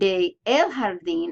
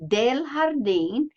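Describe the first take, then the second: First: De and el are said as separate words. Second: De and el merge into one contracted word. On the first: The speaker calls it wrong. "instead of saying de el jardín" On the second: The speaker calls it right. "I have to contract it to say del jardín"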